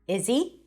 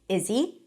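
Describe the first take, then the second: Both takes have the same delivery.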